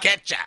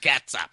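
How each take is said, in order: First: The first syllable is pronounced like 'ket'. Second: The first syllable is pronounced differently from 'ket'. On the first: The speaker calls it right. "It's a K-E-T" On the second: The speaker calls it wrong. "Not ketchup"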